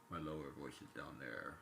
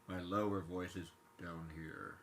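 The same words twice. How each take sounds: First: Lower voice. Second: Said in the usual way. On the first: Shown as a demonstration. Showing viewers his lower voice, dropped lower. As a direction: sink the voice down low.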